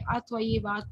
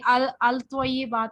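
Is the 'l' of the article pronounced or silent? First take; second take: silent; pronounced. First: The l is silent; the t is doubled. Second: The article's l sound is clearly pronounced. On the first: The speaker calls it right. "लाम इसमें साइलेंट हो जाता है" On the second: The speaker calls it wrong. "इसको हम नहीं पढ़ेंगे"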